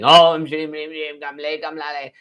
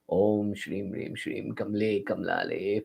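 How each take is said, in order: First: It is shouted loudly and dramatically. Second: It is muttered softly at low volume. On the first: The speaker calls it wrong. "you start shouting it from the top of a building" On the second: The speaker calls it right. "if you mutter it mildly"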